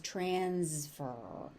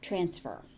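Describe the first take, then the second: First: The S sound is voiced, like a Z. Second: The S sound is voiceless, a plain S. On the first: "a little bit of voicing on that S" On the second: "transfer is normal"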